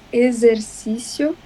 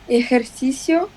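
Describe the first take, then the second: First: The x is said as a z sound. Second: The x is said as an s sound. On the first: The speaker calls it right. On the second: The speaker calls it wrong.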